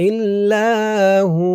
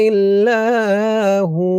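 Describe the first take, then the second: Both takes have the same delivery.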